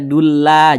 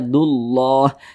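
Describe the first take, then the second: First: The L in lah is thin and light. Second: The L in lah is thick and heavy. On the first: The speaker calls it wrong. "jangan dibaca dulla" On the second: The speaker calls it right. "dibaca tebal, dibaca tafkhim"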